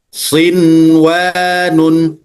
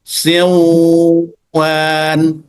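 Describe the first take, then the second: First: The n before the w is pronounced clearly. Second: The n before the w is dropped. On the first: The speaker calls it right. "Harus dibaca izhar atau jelas" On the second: The speaker calls it wrong. "Tidak boleh dibaca"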